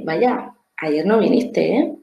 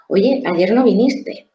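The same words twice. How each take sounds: First: A light, lifted "Vaya" then a slow, easy "ayer no viniste, ¿eh?"; understanding tone. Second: Slow, reproachful "Oye, ayer no viniste" with a firm, drawn-out "no". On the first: (tono comprensivo y suave) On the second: (tono de reproche, lento) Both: Shown as a demonstration. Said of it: "pero el tono es diferente".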